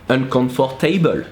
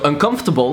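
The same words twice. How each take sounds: First: It is said with a French accent. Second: It is said with a plain English accent.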